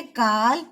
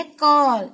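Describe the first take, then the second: First: काल with a plain open आ. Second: कॉल with a rounded ऑ like English call. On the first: Teacher contrasts काल for pupils, open a. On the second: Teacher contrasts कॉल for pupils, rounded vowel. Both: Shown as a demonstration. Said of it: "उच्चारण बदल जाता है".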